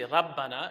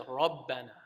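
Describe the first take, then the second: First: The r is light, with an empty mouth. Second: The r is heavy, with a full mouth. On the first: The speaker calls it wrong. "You don't say rabbana" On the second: The speaker calls it right. "You say rabbana"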